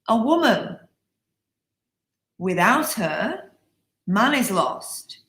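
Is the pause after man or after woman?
after woman. There are pauses after woman and her.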